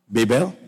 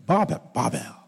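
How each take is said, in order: First: Questioning "Babel" as BAY-bel; alternative pronunciation. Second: "Babel" said as BAH-bel; alternative pronunciation. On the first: Preacher checking with congregation, "Babel" as BAY-bel. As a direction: ask "Babel" with a long AY first. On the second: Preacher settling the word for congregation, "Babel" as BAH-bel. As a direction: say "Babel" with an AH first syllable. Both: Shown as a demonstration. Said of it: "I don't know which school you went to".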